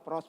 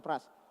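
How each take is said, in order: First: The vowel is a rounded 'oh' sound. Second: The vowel is an open 'ah' sound. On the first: The speaker calls it right. "pros bukan pras" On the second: The speaker calls it wrong. "bukan pras"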